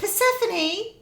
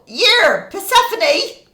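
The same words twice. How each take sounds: First: Higher, drawn-out genteel call; well-to-do shopper calling. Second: High, loud coarse holler; rough parent yelling. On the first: Parent calls child in Waitrose, slow genteel call. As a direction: call the child slowly in an upmarket supermarket. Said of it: "one end of the spectrum or the other". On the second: Parent yells for child in a supermarket, coarse shout. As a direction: holler it like the other end of the spectrum. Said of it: "the other end". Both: Acted.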